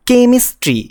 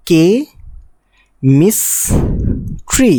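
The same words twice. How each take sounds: First: Said in the usual way. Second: কে, মিস, tree each said alone with a long pause between; pauses between syllables. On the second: Shown as a demonstration. Teacher showing a three-syllable word, pausing after কে and মিস. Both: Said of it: "এটা তিনবার pause আসছে".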